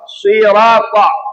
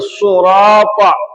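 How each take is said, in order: First: The first vowel is i. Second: The first vowel is u. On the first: This is the usual reading. "Kita baca biasanya suatu kasrah" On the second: This is a permitted variant reading. "didammahkan itu sad jadi surata"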